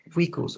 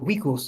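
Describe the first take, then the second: First: It uses a non-classical Latin pronunciation. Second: It uses the classical Latin pronunciation.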